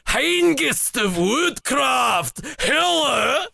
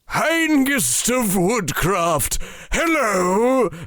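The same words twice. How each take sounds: First: It is said in a new, different voice. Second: It is said in the character's usual voice.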